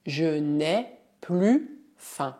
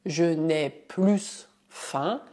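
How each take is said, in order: First: "plus" said "plu" with a silent S, slowly; the correct "plus" with its S silent; correct pronunciation. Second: "plus" said with the final S sounded, "plyss", slowly; the mistaken "plus" with its S pronounced; wrong pronunciation. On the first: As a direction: drop the S of "plus", the right way. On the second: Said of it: "Não dizemos". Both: Shown as a demonstration.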